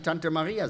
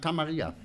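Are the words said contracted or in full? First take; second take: full; contracted. First: Both words are said in full. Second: The words are merged into one short word. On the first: "Wir können ja nicht Tante Maria sagen" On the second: "wir sagen Tamaria"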